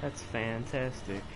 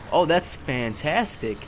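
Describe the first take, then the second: First: Softer, slow flat sarcasm; deadpan sarcasm. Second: Loud, slow sarcastic praise; sarcastic fantastic. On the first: Gamer unimpressed by an enemy's trick, slow deadpan sarcasm. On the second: Gamer mocking own failed jump, loud slow sarcasm. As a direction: drag it out, dripping sarcasm. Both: Real, not acted.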